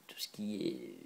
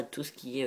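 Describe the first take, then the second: First: "tout ce qui est" whispered low and soft, under the breath; muttered whisper to herself. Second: Said in the usual way. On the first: Real, not acted. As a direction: drop to a whisper while hunting for the word. Whispered while searching for words.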